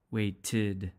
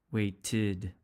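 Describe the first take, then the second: First: "Waited" again, way-tid; teacher repeating "Waited"; repeated ed as id. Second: "waited" with two syllables, way-tid; teacher modelling "waited". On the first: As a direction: echo "Waited" with its added syllable. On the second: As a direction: end "waited" on a clear -tid. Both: Shown as a demonstration. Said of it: "the past tense will have an".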